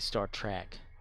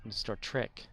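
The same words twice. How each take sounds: First: The vowel in the second word sounds like 'a'. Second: The vowel in the second word sounds like 'e'. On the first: The speaker calls it wrong. "when people would say Star Trek" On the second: The speaker calls it right. "but there's E, not an A"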